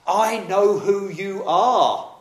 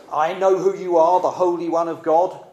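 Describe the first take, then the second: First: Slow, drawn-out, high and louder, I know who you are; slow menacing spirit. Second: Loud taunting demon, I know who you are; intimidating spirit. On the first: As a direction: stretch every word to unsettle him. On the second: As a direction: shout it up high to scare Jesus. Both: Acted. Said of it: "The spirit is trying to intimidate Jesus".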